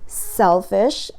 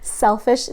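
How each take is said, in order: First: It is said at a slower, moderate pace. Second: It is said at a faster pace.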